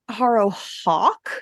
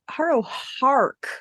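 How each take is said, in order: First: The second part is said without an R. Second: The second part is said with an R. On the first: The speaker calls it wrong. "I thought her name was Harrow Hawk" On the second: The speaker calls it right. "It's Harrow Hark. It's Hark"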